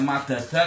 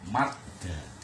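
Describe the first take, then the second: First: Both d sounds carry a vowel after them. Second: The two d sounds merge into one doubled d. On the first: "Madada apabila ada dua huruf hidup yang sama" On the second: "kalau dal yang pertama dimatikan bunyinya madda"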